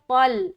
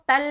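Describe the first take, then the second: First: The t sound is thick and heavy. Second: The t sound is thin and light. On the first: The speaker calls it right. "बल्कि पल" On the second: The speaker calls it wrong. "तल नहीं बोलना"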